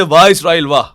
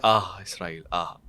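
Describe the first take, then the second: First: Loud, emphatic bravo; acted loud acclaim; open cheering praise. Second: Low, soft sigh of admiration; acted hushed acclaim; muted, sighing support. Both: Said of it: "करने का अंदाज और है".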